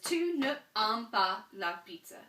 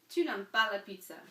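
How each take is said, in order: First: The word ne is said in full before aimes. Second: The ne is elided and linked onto aimes. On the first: The speaker calls it wrong. "That doesn't sound French" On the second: The speaker calls it right. "take um, the E off when they're right next to a vowel"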